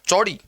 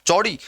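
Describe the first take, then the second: First: The word begins with a 'ch' sound. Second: The same.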